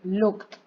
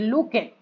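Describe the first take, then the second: First: The ending is a plain T sound. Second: The ending is an extra 'ed' syllable. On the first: The speaker calls it right. "voy a decir" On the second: The speaker calls it wrong. "yo no voy a decir"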